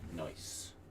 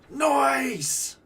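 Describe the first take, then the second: First: It is said at a normal, quiet volume. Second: It is screamed out loudly.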